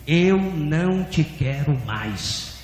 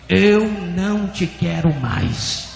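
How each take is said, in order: First: Very slow, measured pronouncement; voice of God repeating. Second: Slow, firm, drawn-out declaration; stronger voice of God. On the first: God rejecting a pastor, slow solemn repetition. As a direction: stretch each word, solemn and restrained. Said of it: "E a voz repetiu". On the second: God repeats to the pastor, slow and more forceful. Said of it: "E a voz repetiu mais forte". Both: Retold or imitated.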